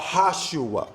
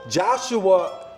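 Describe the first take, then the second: First: The name begins with an H sound. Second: The name begins with a J sound. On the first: The speaker calls it right. "properly pronounced" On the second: The speaker calls it wrong. "that's not the proper pronunciation because there was no J sound"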